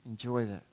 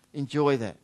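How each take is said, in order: First: Enjoy that almost whispered, much softer and lower; soft repeat. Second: Said in the usual way. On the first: Real, not acted.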